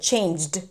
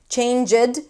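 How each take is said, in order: First: The final sound is joined to the word. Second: The final sound is separated from the word. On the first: The speaker calls it right. "you want to connect it" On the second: The speaker calls it wrong. "you break it into two sounds"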